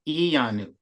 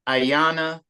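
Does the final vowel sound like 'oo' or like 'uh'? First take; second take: oo; uh. First: The final vowel sounds like 'oo'. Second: The final vowel sounds like 'uh'. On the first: The speaker calls it right. "but it's U" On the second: The speaker calls it wrong. "they're pronouncing the U like uh"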